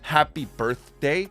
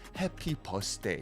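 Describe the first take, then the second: First: Birthday is said with a th sound. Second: Birthday is said with an s sound. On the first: "instead of saying happy birthday" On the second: "every T H pronunciation is replaced with the S"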